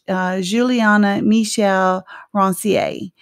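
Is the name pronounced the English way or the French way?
French. The name is said with a French pronunciation. The family does not say the name this way. "And in French"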